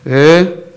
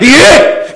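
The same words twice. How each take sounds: First: A flat, unenthusiastic reply. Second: An eager, exclamatory reply.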